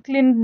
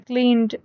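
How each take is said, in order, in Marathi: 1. शेवटचा ड वेगळ्या आवाजासारखा उच्चारला जातो. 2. शेवटचा ड शब्दाला सहजपणे जोडला जातो. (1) "बरेच जणांना क्लीन क्लीन ड म्हणतात" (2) "याला शेवटी ड चा उच्चार येतोय"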